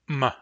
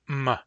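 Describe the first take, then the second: The two takes are said the same way.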